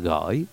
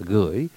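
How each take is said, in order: First: The vowel is ơ, the southern pronunciation. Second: The vowel is ư, the northern pronunciation. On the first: "Người miền Nam gọi là gửi, tức là thay vì cái chữ ư thì họ là bỏ chữ ư đi, họ thêm cái chữ ơ" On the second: "Người miền Bắc gọi là gửi, g ư y dấu hỏi"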